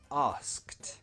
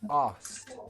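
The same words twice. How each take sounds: First: It is said slowly with the k sound. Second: It is said quickly without the k sound. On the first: The word is said on its own. "if you pronounce it slowly and just as one word" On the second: The word is said naturally in a sentence. "we would remove the k sound. It sounds like this"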